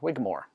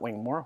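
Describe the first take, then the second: First: It has no n sound before the g. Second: It has an n sound before the g. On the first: The speaker calls it right. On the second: The speaker calls it wrong. "not Wingmore"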